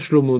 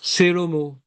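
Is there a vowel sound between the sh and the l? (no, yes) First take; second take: no; yes. First: The sh and l run together with no vowel. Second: A short vowel is heard between sh and l. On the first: The speaker calls it wrong. "on dit pas Shlomo" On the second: The speaker calls it right. "Shva Nad, c'est quand on dit par exemple Shelomo"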